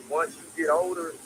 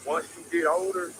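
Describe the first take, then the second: No difference in how they are said.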